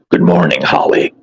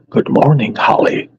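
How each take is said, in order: First: It is said in a put-on character voice. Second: It is said in his normal speaking voice.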